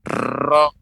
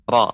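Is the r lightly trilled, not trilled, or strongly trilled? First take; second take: strongly trilled; lightly trilled. First: The r has a long, heavy trill. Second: The r has a slight, light trill. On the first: The speaker calls it wrong. "tidak boleh banyak ra" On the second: The speaker calls it right. "ada getaran ra"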